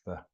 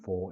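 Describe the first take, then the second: First: The vowel is weak and reduced. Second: The vowel is full and clear. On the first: The speaker calls it right. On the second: The speaker calls it wrong. "for isn't"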